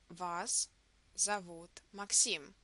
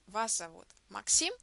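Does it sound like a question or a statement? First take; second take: statement; question. First: It is said as a statement. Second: It is said as a question.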